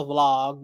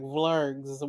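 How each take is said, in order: First: Said in the usual way. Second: "Vlogs" said as vlurgs, with an r-colored vowel; mock "Vlogs" with a drawn-out er sound; mispronounced vlog. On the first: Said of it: "I can't pronounce some of the stuff Nika be saying". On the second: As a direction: imitate Nika saying "Vlogs" as vlurgs. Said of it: "she be over here like".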